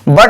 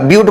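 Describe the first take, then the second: First: The vowel is a short 'uh' sound. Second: The vowel is a long 'yoo' sound. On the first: The speaker calls it wrong. "बट मत बोलिएगा" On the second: The speaker calls it right. "ब्यूट बोलिएगा"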